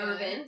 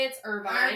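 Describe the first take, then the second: First: The last syllable sounds like 'vin'. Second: The last syllable sounds like 'vine'. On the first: This is how it is said locally. "here it's" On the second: This is how it is said in California. "In California"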